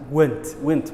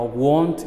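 First: The vowel sounds like the one in 'wet'. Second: The vowel sounds like the one in 'hot'. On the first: The speaker calls it wrong. "it's not went" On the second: The speaker calls it right. "Saasa saxday loo oranaya wa want"

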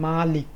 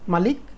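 First: The vowel after m is lengthened. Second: The vowel after m is short. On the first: Owner of an object. "ময়ের পরে একটু টান আছে" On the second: King or ruler over a land. "ময়ের পরে টান নাই"

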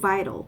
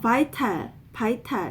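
First: It is said with American English sounds. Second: It is said with Korean-style syllables. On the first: The speaker calls it right. "미국적으로" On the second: The speaker calls it wrong. "이게 아니고"

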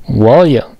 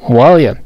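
No difference in how they are said.

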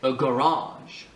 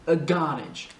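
First: The stress is on the second syllable. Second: The stress is on the first syllable. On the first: This is the English way of saying it. "En anglais, on dit a garage. C'est ici qu'on accentue" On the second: This is the Scottish way of saying it. "en écossais, c'est sur la première syllabe"

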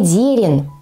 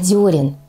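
First: The first vowel is an 'e' sound. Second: The first vowel is a stressed 'yo' sound. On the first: The speaker calls it wrong. "Не «дерен»" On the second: The speaker calls it right. "а «дерен»"

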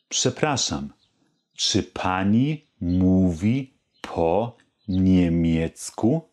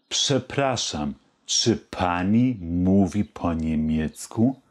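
First: The question is spoken slowly. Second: The question is spoken somewhat faster. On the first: "Die ganze Frage langsam" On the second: "Jetzt etwas schneller"

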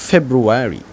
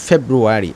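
No difference in how they are said.

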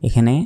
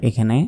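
No difference in how they are said.

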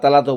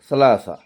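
First: The word starts with a t sound. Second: The word starts with an s-like sound. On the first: This is an acceptable alternative form. "বা তালাতো বলতে পারেন" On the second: This is the correct form. "সালাসা এটা শুদ্ধ আর কি।"

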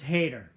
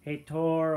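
First: The name is said like the English word hater. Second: The name is said with a Portuguese pronunciation. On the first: This reading turns the name into a joke. "But to me, I think it's funnier" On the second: This is the name's original pronunciation. "or however you pronounce it in Brazilian. Or Portuguese"

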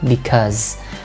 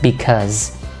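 No difference in how they are said.

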